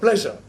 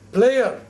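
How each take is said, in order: First: The middle 'zh' sound is clearly said. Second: The middle 'zh' sound is left out. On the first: "instead of pleasure" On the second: "the Punjabis somehow cannot pronounce the S U word"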